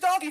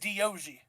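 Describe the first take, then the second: First: The name sounds like the plain word doggy. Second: The name has an extra vowel, like dee-oh-gee. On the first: "Here's Doggy for you" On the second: "His name is Diogi"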